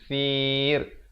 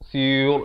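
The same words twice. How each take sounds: First: The r is pronounced thin and light. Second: The r is pronounced thick and heavy. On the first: The speaker calls it right. "ra-nya jadi nipis" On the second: The speaker calls it wrong. "itu tadi tebal"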